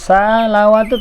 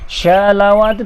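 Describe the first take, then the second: First: It starts with a light, plain s sound. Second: It starts with a sh sound. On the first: "salawatu tak betul" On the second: "ataupun syalawatu tak betul"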